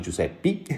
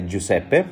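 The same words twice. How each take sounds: First: Giuseppe said joo-SEP-ee, ending on an ee sound; wrong anglicized pronunciation. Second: Giuseppe said joo-SEP-peh, ending on an open eh; correct Italian pronunciation. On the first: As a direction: say Giuseppe the English way, final e turned to ee. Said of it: "not Giuseppe". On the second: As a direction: say Giuseppe the Italian way, with a clear final e. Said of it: "the pronunciation of my name". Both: Shown as a demonstration.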